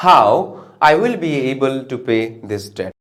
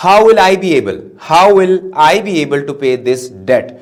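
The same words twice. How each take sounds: First: "How I will be able to pay this debt" said as an exclamation, slow, with no question rise; slow exclamation with "will" after "I"; exclaiming, not asking. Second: "How will I be able" read as a real question, louder, with "will" placed right after "how"; asking, rising tune on "how". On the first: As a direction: marvel at it, do not ask it. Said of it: "तो क्या हो जाएगा?". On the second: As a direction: put the question to them, loud and slow. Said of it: "interrogative अगर होगा तो". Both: Shown as a demonstration.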